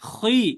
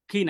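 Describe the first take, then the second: First: The vowel is heavy and full, like 'oy'. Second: The vowel is thin and bright, like 'ee'. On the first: The speaker calls it right. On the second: The speaker calls it wrong.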